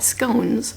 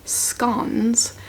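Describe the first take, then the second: First: The word is said in the speaker's everyday way. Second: The word is said the way it's said in Scotland.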